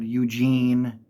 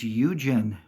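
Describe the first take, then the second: First: The name is said like the English name Eugene. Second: The name is said differently from the name Eugene. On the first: The speaker calls it wrong. "I've heard people say kind of weird" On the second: The speaker calls it right. "It's Eugen"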